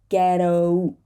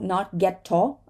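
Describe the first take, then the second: First: The middle T is a quick flap. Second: The middle T is a clear, released T. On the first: The speaker calls it right. "This is going to be um, a flap T" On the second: The speaker calls it wrong.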